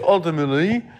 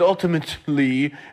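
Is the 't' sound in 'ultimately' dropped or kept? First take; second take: dropped; kept. First: The word is said without its 't' sound. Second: The word is said with its 't' sound. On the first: "and say ultimately" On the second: "I take off the T in ultimately"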